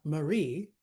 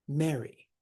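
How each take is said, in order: First: Ma-REE, weight on the end of Marie; stress on second syllable. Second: MA-ry, first syllable louder, then falling; Mary with a strong front beat; stress on first syllable. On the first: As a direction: hit the RIE of Marie. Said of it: "It's not Marie". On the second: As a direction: hit the MA of Mary. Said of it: "the stress is on the first syllable". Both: Shown as a demonstration.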